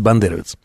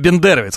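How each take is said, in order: First: The first vowel is said as 'a'. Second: The first vowel is said as 'e'. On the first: The speaker calls it right. "правильно, конечно, говорить бандеровец" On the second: The speaker calls it wrong. "Он говорил именно бендеровец"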